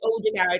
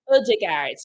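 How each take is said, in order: First: The first vowel is a plain 'oh' sound. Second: The first vowel is an 'uh' sound. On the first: The speaker calls it wrong. "it's actually not Odegaard" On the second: The speaker calls it right. "The the O with the little line through it is like an ugh"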